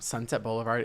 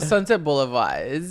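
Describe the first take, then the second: First: It is said in his normal voice. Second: It is said in a put-on accent.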